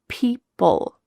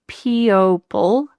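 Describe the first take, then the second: First: No vowel is heard between the two P sounds. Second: An extra O vowel is heard in the middle. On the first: The speaker calls it right. "It's just gone" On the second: The speaker calls it wrong. "We don't say people"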